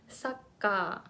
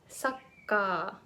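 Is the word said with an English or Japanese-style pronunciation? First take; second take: Japanese; Japanese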